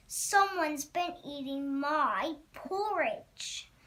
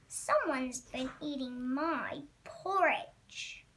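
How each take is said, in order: First: Lightly voiced huge Papa Bear, slow and drawn out; slow, emphatic complaint from a big bear; great huge voice. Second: Lightly voiced Mama Bear, slow; slow, drawn-out complaint at her own modest size; medium-sized voice. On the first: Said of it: "in his great huge voice". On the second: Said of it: "in her medium-sized voice". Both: A narrator's reading.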